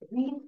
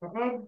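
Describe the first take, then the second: First: The vowel is long, like 'reed'. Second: The vowel is short, like 'red'. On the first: The action is happening now. "ரீட் புக்னா படிக்கிறாங்க அப்படிங்கிற அர்த்தம்" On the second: The action happened in the past. "ரெட் தி புக்குன்னா நான் சொல்லிக்கிறேன்"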